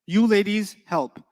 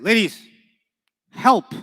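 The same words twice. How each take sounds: First: Said in the usual way. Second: Ladies and help called out louder, help at the top like an order; louder, rising command to a group. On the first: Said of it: "This means you ladies help". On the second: Shown as a demonstration. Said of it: "How do I say it?".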